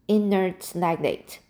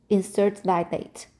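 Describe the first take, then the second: First: "inert" said cleanly as in-ert; corrected word. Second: "inert" stumbled into "instert"; mispronounced word. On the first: Reader correcting her misread "inert", careful pronunciation. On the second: Reader misreading "inert" aloud before correcting, stumbling. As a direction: trip over "inert" as "instert". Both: Shown as a demonstration. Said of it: "Oh, inert. Sorry".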